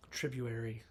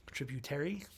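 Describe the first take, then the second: First: Said in the usual way. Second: "tributary" with a clear T and questioning rise; unsure pronunciation. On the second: Real, not acted. Podcaster unsure of the word, "tributary" said questioningly with a rise. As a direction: sound out "tributary" as a question, hitting the second T.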